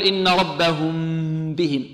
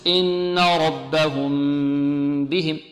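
First: "ربهم بهم" with lips squeezed on the meem; tight-lipped meem in "ربهم", less drawn out; pressed lips. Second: Slow "ربهم", meem hummed through lightly closed lips; drawn-out "ربهم بهم" with no squeeze on the meem; lips without pressing. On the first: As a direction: wrongly press the lips hard before "بهم". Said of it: "نكز الشفتين ونضغط على الشفتين". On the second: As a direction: hold a relaxed hum before "بهم". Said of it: "بإطلاق الشفتين بدون كز". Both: Shown as a demonstration.

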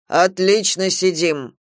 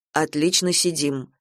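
First: Slow, louder echo; slow, louder sleepy echo; slow obedient repeat. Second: Said in the usual way. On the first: Acted. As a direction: repeat it slowly like a sleepy parrot. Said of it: "повторил ангел". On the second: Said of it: "сказал Галя".

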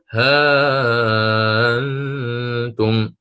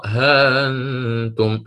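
First: ها أنتم with the alif stretched long and chanted; long madd. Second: ها أنتم with the alif held briefly; short madd. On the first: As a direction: draw out the alif of ها أنتم slowly. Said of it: "أو". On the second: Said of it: "فأقرأ". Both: Shown as a demonstration.

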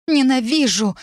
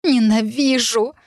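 First: High-pitched outburst of hatred; high, angry exclamation; furious cry. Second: Slow, higher-pitched cry of hatred; drawn-out, strained hatred; hoarse cry. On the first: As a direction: cry it out as if hurling something. Throws crystal in a fit of rage. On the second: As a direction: drag the word out in hoarse rage. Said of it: "прохрипела". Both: A narrator's reading.

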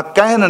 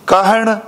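First: ਕਹਿਣ said with a plain dental n, the wrong way. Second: ਕਹਿਣ ending in a retroflex ṇ, tongue curled back. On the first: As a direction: show ਕਹਿਣ ending in a plain n. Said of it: "ਨੰਨੇ ਨਾਲ ਨਹੀਂ ਪੜ੍ਹਨਾ". (ਕਹਿਣ ਨੰਨੇ ਨਾਲ, ਗਲਤ ਉਚਾਰਨ) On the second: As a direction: say ਕਹਿਣ with the naṇa sound, not a plain n. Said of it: "ਨਾਣੇ ਨਾਲ ਗੁਰਮੁਖੋ". (ਕਹਿਣ ਨਾਣੇ ਨਾਲ ਬੋਲੋ) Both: Shown as a demonstration.

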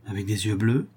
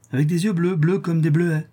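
First: Tentative, rising question; anxious questioning. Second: Higher voice, falling into a sure answer; old crone confirming. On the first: Countess checking the child's eyes, anxious question. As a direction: probe with the voice lifting at the end. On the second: Old woman confirming the child's eyes, crone's echo. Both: Acted.

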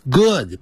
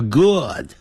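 First: "good" with a long, tense "oo", like "good" rhyming with "food"; wrong pronunciation of "good". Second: "good" with a short, relaxed "oo"; correct pronunciation of "good". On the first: Teacher warning students off a misreading, long-vowel "good". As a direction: tighten and lengthen the vowel in "good". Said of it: "不要念成good". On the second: Teacher modelling it for students, short lax "good". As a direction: say "good" with the same vowel as "book". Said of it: "叫good". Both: Shown as a demonstration.

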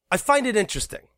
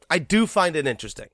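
First: Said in the usual way. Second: "do" pushed hard and falling; stress on do. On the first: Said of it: "first take". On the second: Real, not acted. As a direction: lean on the word "do". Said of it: "emphatic repeat".

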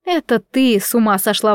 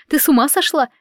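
First: Firm retort leaning on "ты"; stress on ты. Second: Higher-pitched, frightened question; alarmed. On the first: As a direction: throw it back by stressing "ты". Aunt turns the accusation back. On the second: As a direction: ask it in startled disbelief. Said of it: "по-настоящему испугалась мама". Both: A narrator's reading.

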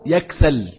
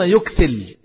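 First: يكسل said "yaksal", slowly and clearly; yaksal form. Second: يكسل said "yuksil", slowly and clearly; yuksil form. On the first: Teacher showing two correct readings, slow yaksal form. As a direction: sound يكسل with a in both syllables: yaksal. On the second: Teacher showing two correct readings, slow yuksil form. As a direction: sound يكسل with u, then i: yuksil. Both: Shown as a demonstration. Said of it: "كليهما صحيح".

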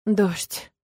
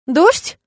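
First: Subdued, falling single word; heavy. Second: High, loud rising question; gasped surprise. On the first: Dragon announces rain to woman, heavy. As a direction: drop the word heavily. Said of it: "тяжело уронил он". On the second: Woman startled by news of rain, gasping. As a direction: leap up on the word, astonished. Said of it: "ахнула я". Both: A narrator's reading.

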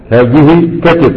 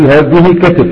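First: Each word drawn out slowly, كتف stretched; slow, deliberate repeat. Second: Said in the usual way. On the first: Shown as a demonstration. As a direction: say it again slowly so students catch كتف. (ببطء وتأنٍّ مع مدّ كلمة كتف) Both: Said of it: "تقول".

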